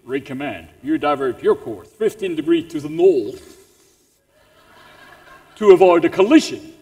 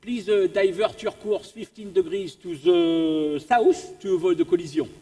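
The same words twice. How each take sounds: First: Low, commanding British naval voice; stern British radio operator, pitched down; English accent. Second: Put-on polite radio request in a French accent; French-accented radio operator, measured and courteous. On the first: Acted. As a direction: put on a British officer's accent, ending louder. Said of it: "better than the English accent". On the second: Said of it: "I'll do the French accent".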